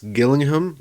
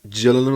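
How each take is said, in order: First: It begins with a hard g sound. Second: It begins with a soft j sound. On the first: The speaker calls it right. "a g sound like when you say goat" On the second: The speaker calls it wrong. "like I was saying"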